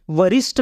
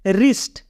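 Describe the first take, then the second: First: वरिष्ठ with an added V sound before the R; W wrongly sounded. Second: रिस्ट with no V sound, starting on R; silent W. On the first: Teacher showing learners the mistake, वरिष्ठ with the W sounded. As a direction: say वरिष्ठ, voicing the silent W as "va". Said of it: "नहीं बोलेंगे इसको हम". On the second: Teacher correcting the wrong reading of wrist, रिस्ट with silent W. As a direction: say रिस्ट straight from the R. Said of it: "इसको बोलेंगे हम". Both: Shown as a demonstration.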